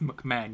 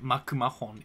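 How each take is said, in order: First: The name is said with English-style syllables. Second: The name is said with Japanese katakana-style syllables. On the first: The speaker calls it right. "It's pronounced McMahon" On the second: The speaker calls it wrong. "You don't pronounce it Makumahon"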